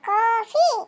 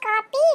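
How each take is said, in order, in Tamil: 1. நடுவில் இருப்பது 'f' ஒலி. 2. நடுவில் இருப்பது 'p' ஒலி. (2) "அது பேர் காப்பி இல்ல"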